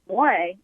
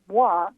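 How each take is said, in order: First: It has the Quebec French pronunciation, like moé. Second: It has the standard France French pronunciation.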